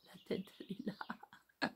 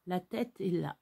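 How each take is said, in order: First: Slow unvoiced whisper; hushed slow whisper beside the sleeping dog. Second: Said in the usual way. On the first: Real, not acted. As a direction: whisper it so she doesn't wake. Showing the dog's head again.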